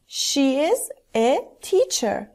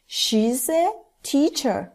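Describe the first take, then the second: First: The words are said in full, unjoined. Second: The words are joined into one contracted syllable.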